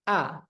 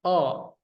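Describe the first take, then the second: First: The vowel sounds plain and open, like a. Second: The vowel sounds dark and rounded, like o. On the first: "kalau istifal pangkal lidah tidak naik, ya biasa saja" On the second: "kalau isti'la, kita isti'lakan huruf hamzah ini, dia akan menjadi seperti ini. Ada bunyi O-nya"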